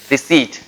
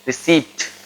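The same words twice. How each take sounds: First: Receipt said ree-SEET, p silent; Receipt corrected, silent p; Receipt modelled right; correct pronunciation. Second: Receipt said ree-SEEPT, p sounded; receipt with the p wrongly voiced; mock-wrong receipt with a p; wrong pronunciation. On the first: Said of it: "it is not receipt". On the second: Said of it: "it is not". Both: Shown as a demonstration.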